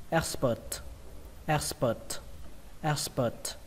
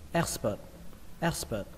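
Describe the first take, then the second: First: "Expert" ending on an aspirated t; final T released. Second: "Expert" with the last t left unreleased; final T dropped. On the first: Teacher models the word for learners, final T released. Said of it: "kết thúc bằng âm T bắn hơi". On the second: Teacher shows the second accepted reading, final T dropped. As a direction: say "Expert" without the puff of t. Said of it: "không cần âm T bắn hơi". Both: Shown as a demonstration.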